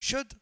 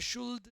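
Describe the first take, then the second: First: The L sound is silent in the word. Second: The L sound is pronounced in the word. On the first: The speaker calls it right. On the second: The speaker calls it wrong.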